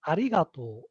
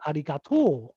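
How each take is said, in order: First: It is said with the standard pitch pattern. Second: It is said with an Osaka pitch pattern. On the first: This is the form learners should use. "the standard intonation is arigato" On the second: This is how people in Osaka say it. "in Osaka, people say arigato"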